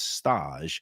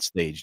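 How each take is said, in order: First: The word has a fancy foreign-style pronunciation. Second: The word has the plain English pronunciation. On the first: It names the restaurant, after the kitchen term. The speaker calls it right. "the fancy foodie way of pronouncing it" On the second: It names the deli with the ordinary name. The speaker calls it wrong. "not Stage Deli"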